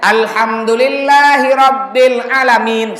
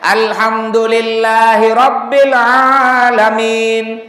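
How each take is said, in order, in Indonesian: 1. Vokal pertama 'alamin' itu pendek. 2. Vokal pertama 'alamin' itu panjang. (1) "Ada orang bacanya ... Salah" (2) "Panjang. A-nya itu panjang"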